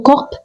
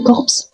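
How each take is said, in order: First: Only the final p is pronounced. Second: The final p and s are both pronounced. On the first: "ne dites jamais ... corp" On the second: "ne dites jamais corpse"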